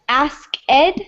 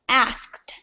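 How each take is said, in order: First: The ending is said as a separate syllable. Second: The ending is joined into one syllable. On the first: The speaker calls it wrong. "it's not always ask ed" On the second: The speaker calls it right. "it's asked"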